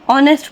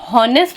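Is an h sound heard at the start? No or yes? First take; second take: no; yes. First: The word starts with a vowel sound. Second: The word starts with an h sound. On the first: The speaker calls it right. "हमेशा ऑन सॉरी ऑनेस्ट पढ़ते हैं" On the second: The speaker calls it wrong. "हम कभी भी हॉनेस्ट नहीं पढ़ते"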